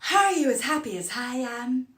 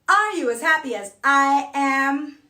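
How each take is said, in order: First: Vowel-initial words start with an audible h-sound. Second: Vowel-initial words start with a sharp glottal attack.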